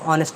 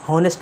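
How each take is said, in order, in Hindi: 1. यह शब्द स्वर ध्वनि से शुरू होता है। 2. यह शब्द h ध्वनि से शुरू होता है। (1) "इसमें एच साइलेंट है, तो इसे आप ऑनेस्ट पढ़ सकते हैं" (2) "इसके बहुत लोग हॉनेस्ट पढ़ते हैं, तो हॉनेस्ट नहीं होता"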